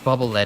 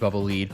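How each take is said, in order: First: The word lead rhymes with bed. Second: The word lead rhymes with need. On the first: It is read as the metal. The speaker calls it wrong. "I read it as lead. Even if it's not correct" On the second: This is the intended name. The speaker calls it right. "I guess it should be bubble lead"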